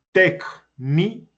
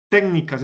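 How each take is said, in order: First: Técnicas slowly in pieces, téc-ni-cas; syllable by syllable. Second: Said in the usual way. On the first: Shown as a demonstration. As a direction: break técnicas into three separate beats. Teacher splits word into syllables. (técnicas separada en sílabas, despacio)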